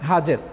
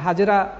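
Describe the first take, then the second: First: The name ends on a consonant sound. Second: The name ends with an extra vowel sound. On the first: This is the original form of the name. The speaker calls it right. "সঠিক উচ্চারণ হচ্ছে হাজের" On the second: This is the commonly known form of the name. The speaker calls it wrong. "যাকে আমরা হাজেরা হিসেবে চিনি"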